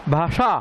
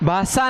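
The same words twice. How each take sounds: First: The middle sibilant is retroflex. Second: The middle sibilant is dental. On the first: The speaker calls it right. "ये मूर्धन्य श है" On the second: The speaker calls it wrong. "भाषा नहीं"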